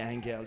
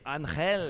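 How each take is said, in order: First: The name is said with English sounds. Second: The name is said with Spanish sounds. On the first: The speaker calls it wrong. "Don't say Angel" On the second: The speaker calls it right. "say Angel"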